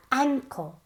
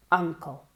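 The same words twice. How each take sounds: First: Ankle with a much more nasal a. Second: Uncle with a low, open uh and the jaw down; dropped jaw uncle. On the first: Teacher shows students the nasal vowel. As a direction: push the a of Ankle up into the nose. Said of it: "Mucho más nasal". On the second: Teacher contrasts uncle with nasal ankle. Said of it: "bajando la mandíbula". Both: Shown as a demonstration.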